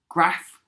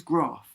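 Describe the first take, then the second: First: Graph with a short flat a; northern graph. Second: Graph with a long broad ah; Cockney graph. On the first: Teacher showing the wrong way: graph with short a. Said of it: "it's not graph, it's graph". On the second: Teacher showing the right way: Cockney graph, long ah. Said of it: "'cause we're in Cockney". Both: Shown as a demonstration.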